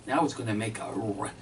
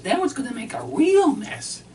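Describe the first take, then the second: First: Said in the usual way. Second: High, loud wife voice on the retake; mimicking his wife. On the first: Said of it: "now she says that". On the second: Husband redoes his wife's complaint in her high loud voice. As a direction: redo the line pitched up as the wife. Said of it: "she says".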